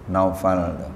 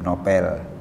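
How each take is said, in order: First: It is said 'Naufal', with au and f. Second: It is said 'Nopel', with an o and p. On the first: This is the original form of the name. "Aslinya Naufal" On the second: This is the localized everyday form of the name. "sebab sudah bahasa Indonesia ya"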